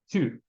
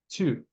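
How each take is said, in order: The two takes are said the same way.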